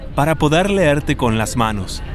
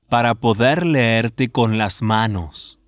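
First: It is said at normal speed. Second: It is said slowly.

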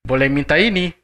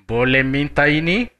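First: The voice goes high then low. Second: The voice rises at the end.

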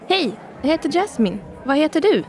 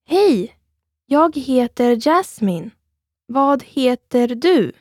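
First: It is said at normal speed. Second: It is said slowly.

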